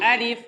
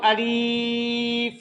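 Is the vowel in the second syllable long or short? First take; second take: short; long. First: The second vowel is short, not stretched. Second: The second vowel is stretched out long. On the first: The speaker calls it right. "अलिफ बगैर खींच कर" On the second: The speaker calls it wrong. "इसको हम अलीफ नहीं पढ़ेंगे"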